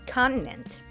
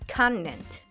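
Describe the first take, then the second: First: The middle T is a brief glottal stop. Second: The middle T is a brief glottal stop.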